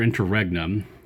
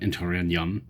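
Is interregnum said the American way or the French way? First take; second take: American; French. First: It is said with an American pronunciation. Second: It is said with a French pronunciation. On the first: "which is the American pronunciation" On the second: "I prefer the French one"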